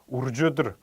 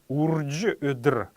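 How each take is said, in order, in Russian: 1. Слово произносится в сокращенной, слитной форме. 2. Слово произносится в полной, тщательной форме.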